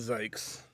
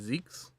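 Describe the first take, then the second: First: The vowel is an 'eye' sound, rhyming with yikes. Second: The vowel is an 'ee' sound, like seeks. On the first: "They they want it to rhyme with uh, yikes" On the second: "if it was the proper German pronunciation, it would be Zeeks"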